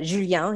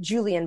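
First: "Julien" said the French way; "Julien" with French J and nasal ending; French pronunciation. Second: "Julien" said the English way; plain Anglicised "Julien", like Julian; English pronunciation. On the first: Correcting his name, "Julien" in French pronunciation. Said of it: "he says it with his accent". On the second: Giving his name, "Julien" in English pronunciation. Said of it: "but Julien". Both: Shown as a demonstration.

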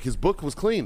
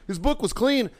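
First: Said in the usual way. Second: High-pitched mocking repeat; incredulous echo. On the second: Marine echoing first sergeant's excuse, incredulous. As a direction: throw the excuse back in disbelief.

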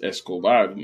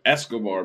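First: Escobar with stress on the last syllable; Spanish Escobar, es-ko-BAR; Spanish pronunciation. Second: Escobar said the American way; Americanized Escobar, English vowels and early stress; American pronunciation. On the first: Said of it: "But it's Escobar in Espanol". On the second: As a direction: stress Escobar on the first syllable, American style. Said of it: "Americans be saying Escobar". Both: Shown as a demonstration.

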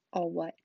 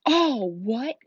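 First: Said in the usual way. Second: Loud, raised, incredulous roar; thundering Hagrid. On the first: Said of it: "asked Harry". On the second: A narrator's reading. Giant stunned by the boy's question, thundering. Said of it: "Hagrid thundered".

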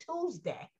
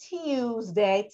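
First: Said in the usual way. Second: Tuesday said slowly as "TEE-yooz-day"; old form of Tuesday. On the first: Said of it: "and eventually Tuesday". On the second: Shown as a demonstration. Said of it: "T I W S D A Y".

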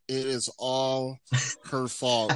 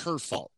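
First: "It is all her fault" slow, every word weighted, "fault" rising at the end; slow stressed blame. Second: Said in the usual way. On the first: Real, not acted. Blaming mom, repeated for emphasis.

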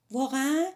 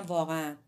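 First: "واقعاً" rising high and loud as a question; surprised question. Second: Said in the usual way. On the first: A narrator's reading. Hatsumi asks the narrator about the mystery, "واقعاً" as a raised question. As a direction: ask "واقعاً" with a sharp upward lift. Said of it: "هاتسومی از من پرسید". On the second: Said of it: "گفتم".

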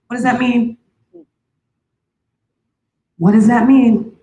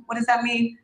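First: Shouted out to the church, louder each time; loud demand. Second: Said in the usual way. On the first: Shown as a demonstration. To the congregation, a loud insistent question. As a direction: demand an answer at full voice.

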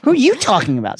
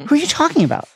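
First: High, emphatic YOU, thrown back at the other person; puzzled retort leaning hard on you; baffled stress on YOU. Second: High, puzzled voice; lightly acted puzzlement, pitched high; puzzled question. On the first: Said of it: "increasing sense that all reason had dropped". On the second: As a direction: ask it high, mildly baffled. Lovesick Ron baffled, higher voice. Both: A narrator's reading.

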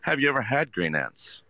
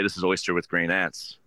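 First: Higher, curious question to a guest; engaging question. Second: Flat recital. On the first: Waiter engaging guests at the table, higher and curious. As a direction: draw the guest in with a friendly question. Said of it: "ask them a question to engage with them". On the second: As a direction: reel off the dish like a script. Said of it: "don't just go and say". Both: Shown as a demonstration.

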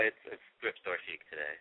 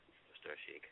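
First: Said in the usual way. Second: Fading whisper. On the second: Real, not acted. Repeats phrase, fading.

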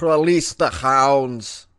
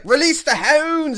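First: Very slow, loud mock Russian accent; attempted Russian accent. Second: Put-on high, loud Scottish-accented shout. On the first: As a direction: draw it out loudly in a rough try at Russian. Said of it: "I didn't use a Russian accent". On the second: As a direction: draw out the call loudly in a Scottish accent. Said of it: "I used a Scottish accent".

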